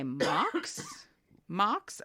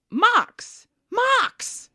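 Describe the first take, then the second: First: Mildly baffled, questioning echo; puzzled question. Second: High, loud exclaimed repeat; mock insistent shout. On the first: Retold or imitated. Clerk querying a customer's odd word, puzzled. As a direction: repeat the strange word slowly as a question. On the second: Lady repeating her word to the clerk, insistent. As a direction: bark the word at a slow clerk, hammed up.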